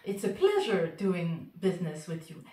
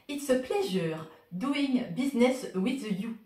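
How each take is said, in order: First: It is said with an English accent. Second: It is said with a French accent.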